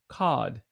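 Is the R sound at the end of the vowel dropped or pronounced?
dropped. The R sound is dropped after the vowel. "some British folk may say cod"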